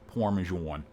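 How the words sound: It is said in an American accent.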